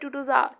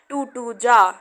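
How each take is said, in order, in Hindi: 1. आखिरी शब्द एक हल्का, नरम 'ar' है। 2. आखिरी शब्द 'ja' जैसा सुनाई देता है। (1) "अमेरिकन एक्सेंट पे ... आर को पूरा ना बोलकर थोड़ा सा बोल देते हैं" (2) "हमने बोला टू टू जा"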